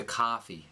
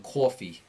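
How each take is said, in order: First: Boston-style accent, "coffee" opened to "cahfee". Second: Thick "or" sound in "coffee", New York accent; New York accent, "coffee" rounded to "cawfee". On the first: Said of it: "you're gonna sound like you're from Boston". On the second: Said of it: "it's an or sound". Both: Shown as a demonstration.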